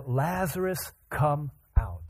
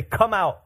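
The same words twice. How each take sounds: First: Single out "Lazarus," then ease down on "come out"; stress on the name. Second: High, loud call to all; general loud summons. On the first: Jesus summoning one man by name, "Lazarus" lifted and set apart. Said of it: "he just used his name". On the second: Jesus calling at the tombs, loud unnamed summons. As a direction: call out loudly without a name. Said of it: "He doesn't just say". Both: Acted.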